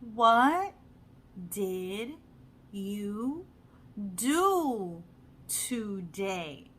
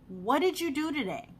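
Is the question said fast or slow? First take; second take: slow; fast. First: It is said slowly with careful, separate words. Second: It is said quickly with the words run together. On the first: This sounds like textbook English, not everyday speech. The speaker calls it wrong. "We're not gonna we're not going to say" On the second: This is how native speakers really talk. The speaker calls it right. "we're going to say"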